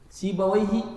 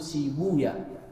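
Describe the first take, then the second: First: The name ends with the sound 'wayh'. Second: The name ends with the sound 'waya'.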